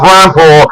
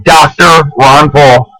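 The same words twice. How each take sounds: First: Said in the usual way. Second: Slow, with Doctor leaned on hard; Doctor Ron Paul drawn out, Doctor stressed. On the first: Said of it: "That's right, not Ron Paul". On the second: Shown as a demonstration. Correcting viewers who drop his title, stressing Doctor. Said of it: "the name, Doctor Ron Paul".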